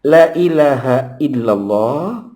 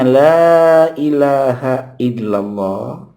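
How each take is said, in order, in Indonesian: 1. Vokal pada la dibaca pendek. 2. Vokal pada la dibaca panjang. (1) "kalau kata la kita baca pendek"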